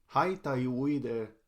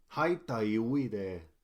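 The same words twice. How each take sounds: The two takes are said the same way.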